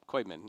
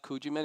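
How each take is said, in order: First: The name begins with a 'koy' sound. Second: The name begins with a 'koo' sound. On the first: The speaker calls it right. "Now I have it right" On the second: The speaker calls it wrong. "I probably mispronounced your last name. It's not Kujiman"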